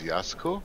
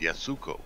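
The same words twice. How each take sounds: First: The U after the S is nearly silent. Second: The U after the S is fully voiced. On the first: This is how the name's owner said it. "the Japanese don't pronounce the U in there, they just kind of speed it over" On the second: This is how the spelling suggests it is said. "it looked like it was spelled"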